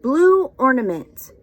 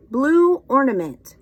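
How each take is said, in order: Both takes have the same delivery.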